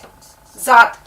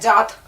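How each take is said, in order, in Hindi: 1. यह शब्द 'z' की आवाज़ से शुरू होता है। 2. यह शब्द 'j' की आवाज़ से शुरू होता है। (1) "जबकि हमें ये जेड से लिखना है जात" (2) "हम इसको जे में बदल देते हैं और हम लिख देते हैं जात"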